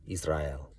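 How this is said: It is said with a Hebrew-style accent. The speaker calls it right. "however you say it with that cool accent"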